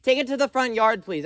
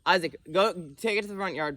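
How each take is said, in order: First: Loudest, highest, fed-up yell; exasperated shout. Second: Raised, higher calling voice. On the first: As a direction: bellow it, out of patience. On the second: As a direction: call it firmly across the yard. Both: Real, not acted. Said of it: "I said that three times".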